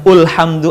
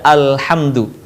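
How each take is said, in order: First: The word begins with an u vowel. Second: The word begins with an a vowel. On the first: The speaker calls it wrong. "bukan ulhamdu" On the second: The speaker calls it right. "baca hamzah wasol dengan harokat A"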